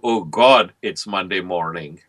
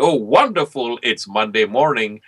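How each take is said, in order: First: It sounds dismayed and weary. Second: It sounds happy and pleased.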